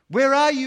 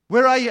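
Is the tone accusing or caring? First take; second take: caring; accusing. First: The question sounds gentle and caring. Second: The question sounds harsh and accusing. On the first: The asker wants to restore and show mercy. The speaker calls it right. "I want to restore this Adam" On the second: The asker wants to pass judgment. The speaker calls it wrong. "Because we want somehow to pass judgments"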